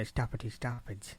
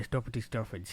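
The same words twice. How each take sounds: First: "stuffity stuffage" with open southern English vowels; southern English accent. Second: "stuffity stuffage" with rounded northern English vowels; northern English accent. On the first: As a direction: imitate southern English pronunciation, softer. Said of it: "like, down south". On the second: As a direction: demonstrate northern English pronunciation, softer. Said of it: "We don't". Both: Shown as a demonstration.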